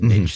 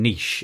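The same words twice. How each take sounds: First: It is said with a non-British pronunciation. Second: It is said with the British pronunciation. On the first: "We we don't pronounce it niche" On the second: "we say um, niche in the U K"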